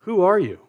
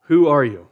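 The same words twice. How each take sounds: First: "are" lifted high in "Who are you?"; stress on are. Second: "who" hit loud in "Who are you?"; stress on who. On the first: Preacher voicing the priests, stressing "are". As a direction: ask it high, leaning on "are". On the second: Preacher pressing the priests' question, stressing "who". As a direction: punch "who", louder. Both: Retold or imitated.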